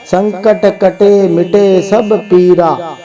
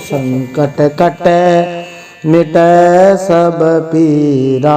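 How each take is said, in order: First: The final vowels are short plain 'e' sounds. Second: The final vowels are long drawn 'ai' sounds. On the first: The speaker calls it wrong. "बहुत सारे लोग तो ऐसे ही बोलते हैं" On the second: The speaker calls it right. "जबकि है कटई"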